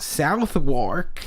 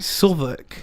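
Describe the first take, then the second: First: The name is said the way a tourist would. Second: The name is said the local way. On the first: The speaker calls it wrong. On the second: The speaker calls it right.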